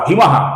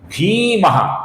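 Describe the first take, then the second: First: The first syllable has a short vowel. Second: The first syllable has a long vowel. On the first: The speaker calls it wrong. "ऐसा ह्रस्व उच्चारण करते हैं जो कि गलत उच्चारण है" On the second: The speaker calls it right. "दीर्घ उच्चारण हमें करना है"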